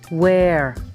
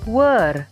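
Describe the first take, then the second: First: The vowel is an 'air' sound. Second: The vowel is an 'er' sound. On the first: The speaker calls it right. "Padahal cara bacanya adalah wear" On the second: The speaker calls it wrong. "atau were"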